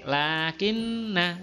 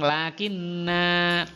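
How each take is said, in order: First: The final vowel is kept short. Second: The final vowel is drawn out long. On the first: The reciter continues into the next word. "pendek lakinna" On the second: The reciter stops at this word. "dibaca berhenti memang lakinna"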